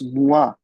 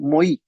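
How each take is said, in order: First: The vowel sounds like wa. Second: The vowel sounds like oy. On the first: The speaker calls it right. "It's मुआ" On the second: The speaker calls it wrong. "It's not मोई"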